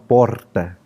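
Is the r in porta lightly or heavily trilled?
heavily. The r has a forced, exaggerated trill. Some people overdo the regional accent. "Alguns até forçam demais e aí falam porta"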